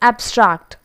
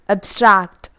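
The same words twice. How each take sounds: First: The stress is on the first syllable. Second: The stress is on the second syllable. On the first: It is used as a noun or adjective. "we have to stress it on the first syllable" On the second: It is used as a verb. "when the same word has been used as verb"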